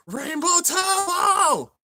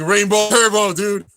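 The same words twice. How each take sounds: First: High, slow, drawn-out shout of the move name; stretched battle cry. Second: Shouted higher and louder; mock battle yell; retold yell. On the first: Retold or imitated. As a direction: belt it like an anime attack call. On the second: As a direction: yell the move name like the crowd. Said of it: "All yelling".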